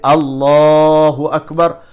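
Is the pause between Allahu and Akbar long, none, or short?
none. It is said without a pause between words.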